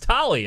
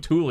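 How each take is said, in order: First: The first vowel sounds like 'toll'. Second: The first vowel sounds like 'tool'. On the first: This is the familiar nickname-style way of saying it. The speaker calls it wrong. "it's Tolly, and I go, no, we've always been wrong" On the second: This is how the family name is actually said. The speaker calls it right. "they're saying it like so and so Thule"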